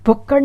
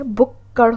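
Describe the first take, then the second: First: भुक्कड़ with a hard unaspirated kk; wrong pronunciation. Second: भुक्कड़ split as 'bhuk-khad'; correct pronunciation. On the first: Teacher repeating the mistake, plain kk in भुक्कड़. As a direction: keep भुक्कड़ free of breath after k. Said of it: "भुक्कड़ नहीं होता है". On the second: Teacher repeating the correction, 'bhuk-khad' for भुक्कड़. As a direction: hold the middle of भुक्कड़ and release as kh. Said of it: "भुक्कड़ होता है". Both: Shown as a demonstration.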